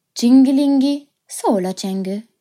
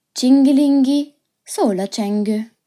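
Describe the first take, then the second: No difference in how they are said.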